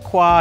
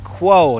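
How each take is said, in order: First: The word ends with an 'ah' vowel. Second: The word ends with an 'oh' vowel. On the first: The speaker calls it wrong. "not Qua" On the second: The speaker calls it right. "It is the Comica Boom XU Quo"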